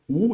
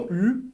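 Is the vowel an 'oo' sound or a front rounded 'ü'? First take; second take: oo; ü. First: The vowel is a back rounded oo sound. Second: The vowel is a front rounded ü sound. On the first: The speaker calls it right. "mas sim U dessa vez, igual no português" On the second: The speaker calls it wrong. "Não U"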